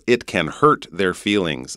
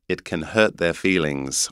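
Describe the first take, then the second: First: North American "hurt" with a clear R; North American accent. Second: English "hurt" with the R dropped; English accent. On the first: Teacher contrasting R sounds, North American accent. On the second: Teacher contrasting R sounds, English accent. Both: Shown as a demonstration. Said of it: "you can hear in the North American accent".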